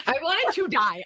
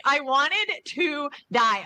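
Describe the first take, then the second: First: Higher-pitched dramatic confession; dramatic, mortified storytelling; emphatic embarrassment. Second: Drawn out at half speed, higher-pitched; slow dramatic confession of embarrassment; slow, emphatic repeat. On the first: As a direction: blurt out the mortification at a normal pace. Retelling her embarrassment, first take. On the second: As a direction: stretch every word for dramatic mortification. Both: Real, not acted.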